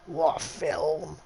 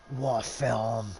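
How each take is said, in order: First: Slow, higher, louder: what a film; savouring each word of what a film; drawn-out exclamation. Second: Fond exclamation. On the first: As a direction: stretch it out in awe. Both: Real, not acted. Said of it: "one of my favourite films".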